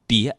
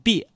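First: It is said in the standard Mandarin pronunciation. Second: It is said in the Northeastern dialect pronunciation. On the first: "普通话念别" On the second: "东北话念别"

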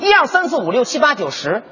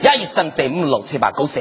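First: The numbers are counted in Mandarin. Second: The numbers are counted in Cantonese.

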